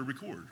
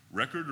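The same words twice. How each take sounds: First: "record" as rih-KORD, stress on the second syllable; verb RECORD. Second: "record" as REK-erd, stress on the first syllable; noun RECORD. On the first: Teacher showing two readings of a word, "record" stressed at the end as rih-KORD. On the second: Teacher showing two readings of a word, "record" stressed up front as REK-erd. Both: Shown as a demonstration. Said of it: "I don't know if I should say".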